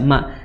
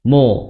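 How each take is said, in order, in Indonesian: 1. Suku kata ini terdengar ringan, dengan vokal yang terang. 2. Suku kata ini terdengar berat, dengan vokal yang gelap. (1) "Padahal ma biasa ma" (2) "ikut ditebalkan"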